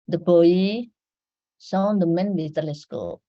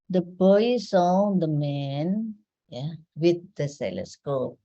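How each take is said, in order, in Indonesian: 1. Tidak ada jeda sebelum 'with'. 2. Ada jeda sebelum 'with the telescope'. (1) "Maka yang membawa teleskop adalah the man" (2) "ya berarti yang membawa adalah boy"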